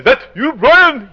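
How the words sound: It is said with a French accent.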